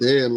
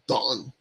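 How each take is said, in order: First: The vowel is flat, as in 'cat'. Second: The vowel is open, as in 'father'. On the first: The speaker calls it wrong. "we've been saying Dan like uh, an American uh, accent" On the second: The speaker calls it right. "Don is how we pronounce it"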